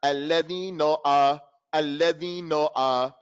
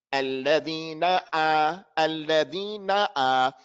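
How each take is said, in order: First: "alladhina a" with "na" rounded to "no"; mistaken vowel. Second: Slow chant, "na" and "a" equally open; lower, measured "Alladhina a" with full final "na"; matching vowels. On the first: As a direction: chant "alladhina" lower, its end dulled to "no". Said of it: "It's clear mistake". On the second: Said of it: "has to be the same". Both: Shown as a demonstration.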